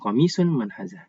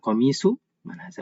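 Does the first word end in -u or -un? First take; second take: -un; -u. First: The first word ends in an added n sound. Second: The first word ends in a plain u sound. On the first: The speaker calls it wrong. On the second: The speaker calls it right.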